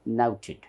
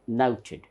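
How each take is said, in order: The two takes are said the same way.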